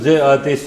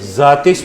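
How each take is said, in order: First: The two words are said as separate words. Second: The two words are joined into one word. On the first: This is fine when the meter does not need it. "वरना नहीं है तो जे आतिश ही पढ़ लें" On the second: This keeps the poem's meter. "जातिश बन जाएगा ना अगर वजन का शोर है"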